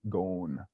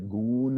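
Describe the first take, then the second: First: The vowel sounds like the o in phone. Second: The vowel sounds like the oo in moon. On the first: "sound that you hear in the English word phone" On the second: "They will say goon instead of gone"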